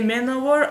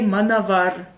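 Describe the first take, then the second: First: The middle consonant is a w sound. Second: The middle consonant is a v sound. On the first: The speaker calls it right. "when I try to say Manowar" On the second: The speaker calls it wrong. "I always say Manavar. Pardon my Russian mind"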